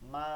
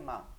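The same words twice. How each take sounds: First: The word is called out loudly and drawn out. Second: The word is said softly at normal volume. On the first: The person called is far away. "আবার দূরে থাকলে" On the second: The person called is nearby. "ধারে থাকলে"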